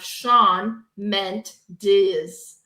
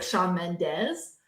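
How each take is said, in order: First: "Shawn Mendes" drawn out very slowly as separate chunks; words read separately. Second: "Shawn Mendes" blended into one name, rising at the end; words run together. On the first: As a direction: read "Shawn Mendes" as unrelated words with long gaps between. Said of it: "you say them out loud together". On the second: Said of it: "they say something else". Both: Shown as a demonstration.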